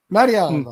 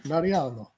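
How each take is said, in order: First: Loud, high, rolling Mariano. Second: Said in the usual way. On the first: Shown as a demonstration. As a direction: Mariano with Italian flair. Repeating the name with flair.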